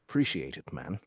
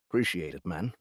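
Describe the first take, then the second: First: It is said in an attempted British accent. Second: The same.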